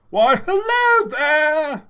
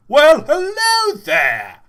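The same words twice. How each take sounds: First: Put-on much higher, louder, slow old professor voice; Professor Griswold. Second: Much higher and louder, slow shopkeeper greeting; Gregory voice. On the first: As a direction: boom a slow eccentric professor hello. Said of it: "Should I do Professor Griswold?". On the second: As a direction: belt it out as the cheery shopkeeper. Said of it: "should I give Gregory a voice?". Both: Shown as a demonstration.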